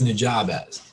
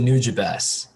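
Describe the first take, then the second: First: The first syllable does not sound like 'new'. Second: The first syllable sounds like 'new'. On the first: The speaker calls it wrong. "I always read it as Nujabes" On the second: The speaker calls it right. "he pronounced it Nujabes ... He said new"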